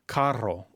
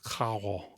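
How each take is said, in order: First: The R is a rolled trill. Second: The R is a breathy, aspirated sound. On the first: "with a double R" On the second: "it might sound more aspirated"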